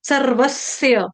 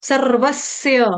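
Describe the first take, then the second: The two takes are said the same way.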